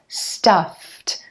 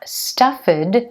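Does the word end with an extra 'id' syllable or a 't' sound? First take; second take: t sound; id syllable. First: The ending is a short 't' sound. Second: The ending is an extra 'id' syllable. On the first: The speaker calls it right. "that ed ending is going to be pronounced like a t" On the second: The speaker calls it wrong. "it's not stuffed"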